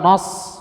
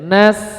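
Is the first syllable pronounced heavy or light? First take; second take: heavy; light. First: The syllable is pronounced heavy and thickened. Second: The syllable is pronounced light and thin. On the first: The speaker calls it wrong. "Bukan nos, bukan nos enggak boleh" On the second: The speaker calls it right.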